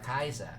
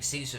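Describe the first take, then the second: First: It starts with a K and an eye vowel. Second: It starts with an S and an ee vowel. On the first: This is the older, original way of saying it. "A E was an I. It was an I sound" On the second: This is the modern English way of saying it. "a very modern day, anglicized pronunciation"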